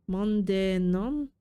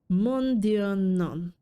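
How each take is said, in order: First: NON lifted into a question; "non" ends on a clear upward glide; questioning echo. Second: Drawn-out French refusal, falling at the end; French-accented cat turning down an offer. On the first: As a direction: repeat it unsure, rising on "non". Repeats cat's French line, puzzled. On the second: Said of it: "how to do a French accent". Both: Acted.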